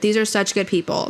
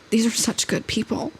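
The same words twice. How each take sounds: First: It is read in a plain, natural way. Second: It is read in a whiny, exaggerated way.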